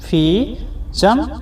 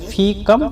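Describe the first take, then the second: First: The second word begins with a 'ch' sound. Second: The second word begins with a 'k' sound. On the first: This is the form used in some regions. "चम भी बोला जाता है" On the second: This is the form used in other regions. "कम भी बोला जाता है"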